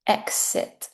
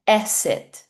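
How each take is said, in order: First: "exit" with a clear eks, hushed; correct "exit". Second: "exit" said as esit, dropping the k; wrong form "esit". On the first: Teacher gives the correct "exit" with eks. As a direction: say "exit" with the k sound. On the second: Teacher imitates learners saying "exit" as esit. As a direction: say "exit" without the k sound. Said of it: "Sometimes I hear people say". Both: Shown as a demonstration.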